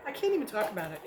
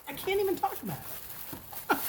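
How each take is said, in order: First: Said in the usual way. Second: High, excited repeat; gushing. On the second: Real, not acted. Reviewer gushing over pink sugar wax, giddy. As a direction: say it again, higher and giddy.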